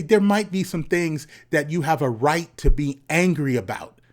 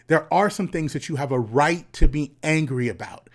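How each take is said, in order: First: Said in the usual way. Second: Breathy unvoiced whisper. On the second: Shown as a demonstration. Speaker repeats his point to young men, now whispered. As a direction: say it like a secret, no voice.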